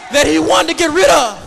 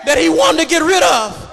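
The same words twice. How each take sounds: The two takes are said the same way.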